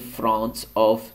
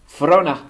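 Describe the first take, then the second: First: Both words are pronounced fully with the T. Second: The T is dropped and 'of' becomes 'a'.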